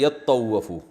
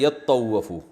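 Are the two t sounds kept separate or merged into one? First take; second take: merged; merged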